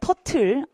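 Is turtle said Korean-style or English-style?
Korean-style. It is said with Korean-style syllables. The speaker calls it wrong. "터틀 아니죠"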